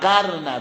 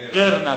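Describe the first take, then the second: First: The first syllable has the vowel a. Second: The first syllable has the vowel i. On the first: This is one traditional reading of the word. "قره عاصم و نافع و قرنه به فتح القاف" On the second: This is the other traditional reading of the word. "والباغون بقیه خوندن به کسر قاف"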